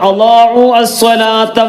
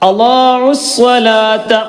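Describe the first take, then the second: First: The first word ends separately before the second. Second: The first word runs straight into the second. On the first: The speaker calls it wrong. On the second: The speaker calls it right.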